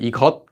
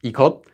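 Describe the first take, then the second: First: The word ends with a closing consonant. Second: The same.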